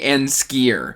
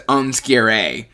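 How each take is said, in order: First: The first vowel sounds like the vowel in 'cat'. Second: The first vowel sounds like the vowel in 'cup'. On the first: This is the speaker's own easier way of saying it. "now I say Anskier" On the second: This is how the audiobook says it. "The audiobook sends Unskier"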